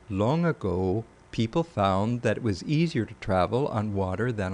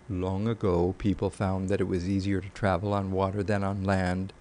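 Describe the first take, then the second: First: The pitch moves widely, returning to a low point. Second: The pitch stays flat and level throughout.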